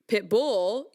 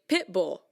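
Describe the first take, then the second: First: The stress falls on bull, the second part. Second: The stress falls on pit, the first part. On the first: The speaker calls it wrong. "you wouldn't say pit bull" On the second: The speaker calls it right. "you would say pit bull"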